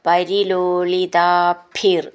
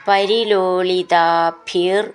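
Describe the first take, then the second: Both takes have the same delivery.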